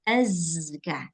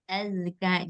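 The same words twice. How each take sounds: First: The z is said with a strong whistling buzz. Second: The z is said with a weak buzz. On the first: The speaker calls it right. "Seharusnya dia azka. Harus kuat suara sofirnya" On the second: The speaker calls it wrong. "jadinya gitu"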